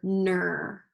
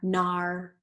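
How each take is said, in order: First: The vowel sounds like er in her. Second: The vowel sounds like ar in car. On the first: "let's do this one with E R" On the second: "let's try it with R"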